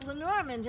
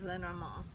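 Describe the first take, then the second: First: The name is said with an American accent. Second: The name is said with a French accent. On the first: The speaker calls it wrong. "I'm giving it an American pronunciation" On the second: The speaker calls it right. "You really should pronounce that with a French accent"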